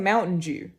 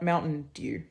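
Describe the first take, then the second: First: Dew starts with a 'j' sound, like 'Jew'. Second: Dew starts with a plain 'd' sound. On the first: This is how most Australians say it. "We even say Mountain Dew" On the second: This is how Australians do not say it. "not Mountain Dew"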